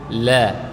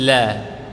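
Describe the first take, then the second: First: The l sound is soft and gentle. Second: The l sound is soft and gentle.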